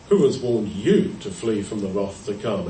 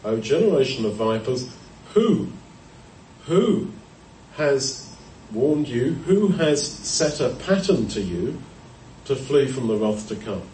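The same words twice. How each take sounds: First: "who has warned YOU to flee", accusing question; stress on YOU. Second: "WHO... WHO has warned you", deliberate emphasis; stress on WHO. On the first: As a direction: lean on YOU, pointed at sinners. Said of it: "You could read that two ways". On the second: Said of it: "put the emphasis in that sentence on the word who". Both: Shown as a demonstration.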